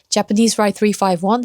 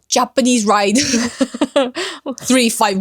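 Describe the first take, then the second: First: Smooth, soft English with an American-sounding accent. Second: Rough, harsh English with a strong Korean accent. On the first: The speaker has mixed a lot with Americans. "유한 느낌의 이 기본 발음" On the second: The speaker has not mixed much with Americans. "조금 더 억세게"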